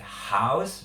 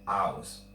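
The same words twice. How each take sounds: First: The word begins with an audible h sound. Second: The word begins directly with the vowel. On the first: "You're not going to hear like house" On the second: "but you're going to hear house"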